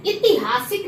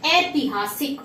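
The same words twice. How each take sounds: First: "ऐतिहासिक" starting with i; wrong first vowel. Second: "ऐतिहासिक" starting with ai; corrected first vowel. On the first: Teacher shows the mistake, "ऐतिहासिक" starting on short i. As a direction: say "ऐतिहासिक" as i-ti-haasik. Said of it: "नहीं". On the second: Teacher corrects students, "ऐतिहासिक" with open ai. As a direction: say "ऐतिहासिक" as ai-ti-haasik. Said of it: "ऐतिहासिक नहीं". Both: Shown as a demonstration.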